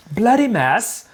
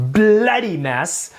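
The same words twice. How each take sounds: First: "Bloody mess" said higher in a crisper mock British accent; a second, higher try at British "Bloody mess"; better British accent. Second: Put-on a slow, lightly done British accent on "Bloody mess". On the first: Host retrying the British accent after a bad first go. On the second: Host trying a British accent for the co-host, slow and hammy. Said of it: "shall we throw a British accent in there".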